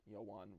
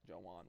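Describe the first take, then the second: First: "Yowan" opening on a Y glide; alternative pronunciation. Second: "Jowan" opening on a hard J; alternative pronunciation. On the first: Gamer weighing two versions of a name, "Yowan" with a Y. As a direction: try "Yowan" as yo-WAHN. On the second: Gamer giving up on a player's name, "Jowan" with a J. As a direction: try "Jowan" as jo-WAHN. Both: Real, not acted. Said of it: "Jowan, whatever".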